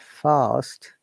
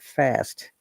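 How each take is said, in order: First: It is said with a British pronunciation. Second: It is said with an American pronunciation. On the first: "a British uh, way or British accent or British pronunciation" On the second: "they say fast"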